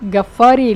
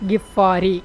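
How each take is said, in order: First: The first vowel is an a sound. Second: The first vowel is an i sound. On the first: The speaker calls it wrong. "இவர் பேர் அபூதர் அல் கஃபாரி இல்லை" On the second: The speaker calls it right.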